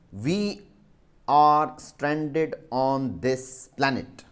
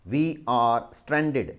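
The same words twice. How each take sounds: First: We are stranded on this planet said slowly, word by word; slow dictation. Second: We are stranded said very slowly, each word apart; slow dictation. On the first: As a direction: dictate slowly so pupils can write. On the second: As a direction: repeat it slowly for writing. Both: Shown as a demonstration. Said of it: "S T R A N D E D".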